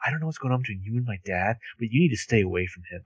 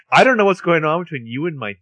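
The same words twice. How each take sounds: First: Softer, fast, through gritted teeth; low through gritted teeth. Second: Louder, higher angry line; loud angry retort. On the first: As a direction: hiss it as a quiet threat. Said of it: "she says it low through gritted teeth". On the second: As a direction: snap it out angrily. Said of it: "Or, I'm sorry". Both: Retold or imitated.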